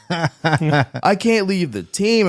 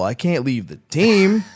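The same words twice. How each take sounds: First: Higher and very slow, laughing through it; hammed-up laughing plea; mock whine, laughing. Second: Higher, slowed mock-serious plea; a hint of mock devotion; mock earnest excuse. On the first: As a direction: stretch the excuse out as a joke on himself. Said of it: "repeats his excuse, laughing". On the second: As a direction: play the loyal cook half-joking. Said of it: "I go".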